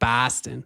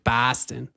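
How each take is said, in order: First: It is said in a Boston accent. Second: The same.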